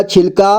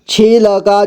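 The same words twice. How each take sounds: First: Said in the usual way. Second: छिलका as छि-ल-का; syllable by syllable. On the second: Shown as a demonstration. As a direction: sound out छिलका with "la" on its own. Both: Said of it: "एक ही बार में पढ़ेंगे".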